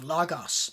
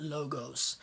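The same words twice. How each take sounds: First: "logos" with open short o's, like "log-oss"; short omicron O. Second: "logos" with long closed o's, like "low-gohs". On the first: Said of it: "ends in that short O". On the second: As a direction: say "logos" with round oh sounds. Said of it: "it's a different sound, not". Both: Shown as a demonstration.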